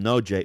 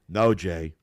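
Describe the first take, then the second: First: It is said in a plain, neutral tone. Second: It is said in a sarcastic tone.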